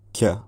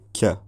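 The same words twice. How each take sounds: First: A k with a slight y sound after it. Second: The same.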